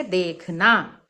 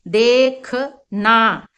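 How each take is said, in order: First: Said in the usual way. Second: देखना stretched very slowly, syllable by syllable; slow demo word. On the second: Shown as a demonstration. Teacher spelling out देखना slowly, a bit louder. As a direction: say देखना drawn out so each sound is heard. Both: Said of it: "तो हम इसको कैसे बोलेंगे".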